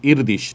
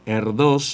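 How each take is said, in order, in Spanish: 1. Suena como 'Irdish', termina en 'sh'. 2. Se lee como se escribe, termina en 's'. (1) "has averiguado que es algo así como Irdish" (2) "Se escribe en español, sería Paul Erdős"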